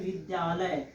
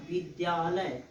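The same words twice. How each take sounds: First: Said in the usual way. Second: "विद्यालय" opening on b instead of v; Awadhi-style "विद्यालय", first sound a b. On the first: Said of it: "विद्यालय में वा कहाँ है". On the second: Shown as a demonstration. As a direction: say "विद्यालय" as bidyalay. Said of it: "तो ये हो जाएगा".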